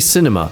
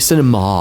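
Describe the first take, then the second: First: The word is pronounced in a plain, ordinary way. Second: The word is pronounced in a showy, affected way. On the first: This is the ordinary way people say it. "they don't say cinema" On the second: This is how pretentious film fans say it. "they say cinema"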